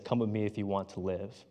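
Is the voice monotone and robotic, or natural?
natural. It is said in a natural speaking voice.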